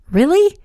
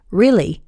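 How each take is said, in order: First: High, rising question; hopeful surprise. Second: Falling, settled confirmation; reassuring. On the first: Haven hoping Wyatt is over Kat, hopeful question. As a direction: ask it pitched way up. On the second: Wyatt assuring Haven he's over Kat, reassuring. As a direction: confirm it simply, falling at the end. His confirming answer to her question. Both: A narrator's reading.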